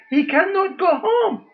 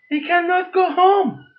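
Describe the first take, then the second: First: Voice breaking. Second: Said in the usual way. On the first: Real, not acted. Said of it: "My heart starts crying".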